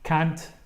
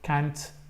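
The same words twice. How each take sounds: First: It is said with an American accent. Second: It is said with an American accent.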